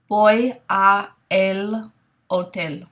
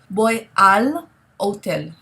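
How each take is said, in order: First: The words 'a' and 'el' are said separately. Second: The words 'a' and 'el' merge into 'al'. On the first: The speaker calls it wrong. "it makes sense to say, voy a el hotel. But we can't say it that way" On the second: The speaker calls it right. "a and el are just going to combine into the required contraction"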